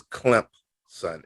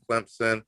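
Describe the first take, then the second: First: "Clemson" said slowly with a P sound, as CLEMP-son; original pronunciation. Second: Said in the usual way. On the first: Shown as a demonstration. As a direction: stretch out "Clemson" as two parts, Clemp, then son. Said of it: "the initial pronunciation of Clemson". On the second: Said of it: "how it's originally pronounced".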